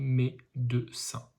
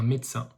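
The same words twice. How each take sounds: First: The middle syllable is clearly pronounced. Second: The middle syllable is swallowed in quick speech. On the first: "Mais ça s'écrit médecin" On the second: "on mange un petit peu le, la deuxième syllabe quand on le dit, parce qu'on le dit très vite"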